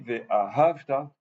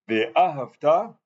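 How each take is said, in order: First: The stress falls before the final syllable. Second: The stress falls on the final syllable. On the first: It speaks of loving in the past. The speaker calls it wrong. "ça veut dire je parle au passé, la conjugaison du passé" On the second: It is a command to love. The speaker calls it right. "c'est l'impératif"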